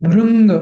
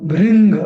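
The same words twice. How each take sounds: The two takes are said the same way.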